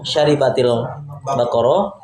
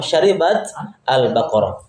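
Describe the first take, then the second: First: The two words are joined without a stop. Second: The voice stops after the first word. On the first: "Kalau disambung" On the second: "kalau diwaqaf"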